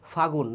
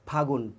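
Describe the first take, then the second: First: The first sound is not made with both lips. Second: The first sound is made with both lips. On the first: The speaker calls it wrong. "Not ফাগুন" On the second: The speaker calls it right. "ঠোঁট দিয়ে বলতে হবে"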